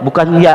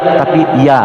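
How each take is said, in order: First: The vowel is short. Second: The vowel is held long. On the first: The speaker calls it wrong. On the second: The speaker calls it right. "kalau panjang kan dua ya, a nya dua"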